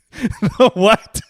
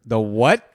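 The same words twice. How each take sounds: First: Louder, high-pitched query through laughter; incredulous laughing. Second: Puzzled query, rising at the end; taken aback. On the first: Co-host laughs at a garbled island name, incredulous. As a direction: crack up while asking it. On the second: Co-host hears a garbled island name, taken aback. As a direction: ask it in disbelief. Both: Real, not acted.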